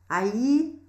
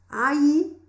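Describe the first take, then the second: First: The double L sounds like a 'y' sound. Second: The double L sounds like a 'y' sound.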